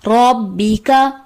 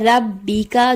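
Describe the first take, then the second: First: The r sound is heavy and full. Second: The r sound is light and thin. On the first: The speaker calls it right. "दुरुस्त अदायगी है" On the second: The speaker calls it wrong. "रॉ को बारीक पढ़ दिया जाता है"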